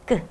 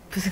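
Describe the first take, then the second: First: The cluster becomes a single tense consonant. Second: Every consonant of the cluster is sounded separately. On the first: This is a simplified reading used for interpretation. "해석을 할 때는 요것만 된 소리를 읽을 테니까 끄로 읽어주면 된다" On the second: This is how the letters were actually read historically. "실제로 이렇게 썼던 글자는 저 세 개를 다 읽어줬었다라고 해요"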